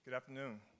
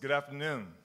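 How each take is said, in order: First: It is said in the speaker's ordinary voice. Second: It is said in a put-on imitated voice.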